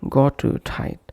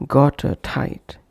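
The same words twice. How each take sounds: The two takes are said the same way.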